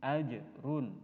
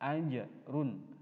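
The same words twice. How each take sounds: First: The j is released with a short echoing bounce. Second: The j is released with a short echoing bounce.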